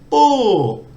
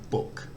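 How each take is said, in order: First: The pitch starts high and then goes down. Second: The pitch stays level in the middle range. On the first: "falling, it goes the other way. You put energy into the start of the word and then it goes down" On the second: "with a mid tone, it's just normal speech"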